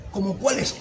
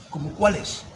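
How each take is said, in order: First: ¿Cómo cuáles? rising at the end as a question; rising puzzled question. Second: ¿Cómo cuáles? said level, no rise at the end; flat puzzled reply. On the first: His confused answer repeated as a rising question. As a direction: ask ¿Cómo cuáles? with the voice going up. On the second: His confused answer to the greeting, said flat. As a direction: let ¿Cómo cuáles? stay flat like a statement. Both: Shown as a demonstration. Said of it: "no es lo mismo una pregunta que una afirmación".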